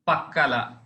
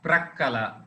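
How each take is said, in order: First: The word begins with a plain 'pa' sound. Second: The word begins with a 'pra' sound.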